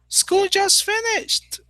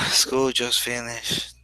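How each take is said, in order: First: It is said in a happy, excited tone. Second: It is said in a sad, disappointed tone. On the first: The end of school is good news. "And everybody says, wow, yes" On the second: The end of school is bad news. "So I'm sad"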